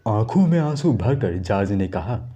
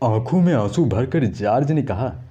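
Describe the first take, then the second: First: It is said in a soft, subdued tone. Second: It is said in a mischievous, playful tone. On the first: The speaker is timid and tearful. "Soft लहजे में करके देखते हैं" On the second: The speaker is a naughty child. "थोड़ा नटखट पना add कर देंगे"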